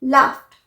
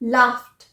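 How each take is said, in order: The two takes are said the same way.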